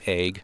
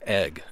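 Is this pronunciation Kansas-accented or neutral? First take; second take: Kansas-accented; neutral. First: It is said with a Kansas regional accent. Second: It is said in a neutral, non-regional way. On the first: The speaker calls it wrong. "I have worked so hard to squash the way I pronounce other words" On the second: The speaker calls it right. "like egg instead of"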